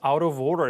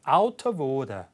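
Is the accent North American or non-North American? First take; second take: North American; non-North American. First: It is said in a North American accent. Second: It is said in a non-North American accent. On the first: "북미 영어라서 out of order 이렇게 발음- 발음됐는데" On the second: "북미 영어가 아닌 거니까 발음이 한번 다르죠"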